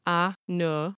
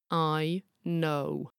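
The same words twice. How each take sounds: First: "I know" as "ah noh", neither vowel gliding; flat, unbending vowels in "I know"; flat monophthongs. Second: "I know" with both vowels gliding, "eye noh-oo"; bendy diphthongs. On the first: Narrator asking listeners to compare, flat vowels. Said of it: "a single flat vowel like no". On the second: Narrator asking listeners to compare, bendy vowels. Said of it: "a diphthong or a bendy vowel". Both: Shown as a demonstration.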